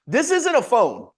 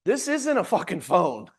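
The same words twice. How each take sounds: First: Slow and louder, stress on "isn't"; clean retake. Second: Slow, laughing outburst; excited emphasis. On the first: Coach restating it to agents, slow and louder. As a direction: land "isn't" hard without the swear. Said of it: "Pardon my language there". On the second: Coach to agents about the phone, slow and worked up. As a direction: punch it with a laugh in it. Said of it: "I get a little excited about this stuff". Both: Real, not acted.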